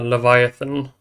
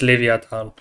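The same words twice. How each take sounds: First: The name is said with English pronunciation. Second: The name is said with German pronunciation. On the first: "for the English speakers" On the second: "For the Germans, it's"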